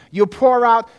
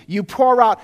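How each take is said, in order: Both takes have the same delivery.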